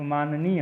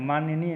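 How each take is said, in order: First: माननीय as "maan-neey"; two clean n sounds in माननीय; correct pronunciation. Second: माननीय with inserted "nya"; wrong pronunciation. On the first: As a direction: keep the middle of माननीय free of y. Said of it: "होता है". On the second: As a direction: say maanya-neey for माननीय. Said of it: "नहीं". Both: Shown as a demonstration.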